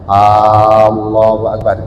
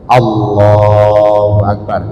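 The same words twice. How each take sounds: First: The first vowel of Allahu is drawn out long. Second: The first vowel of Allahu is short. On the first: The speaker calls it wrong. "seumpamanya ditambah kan dibaca panjang mas. Allahu Akbar, tidak boleh seperti itu" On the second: The speaker calls it right. "hamzah yang di depan di dalam lafal Allah kan pendek"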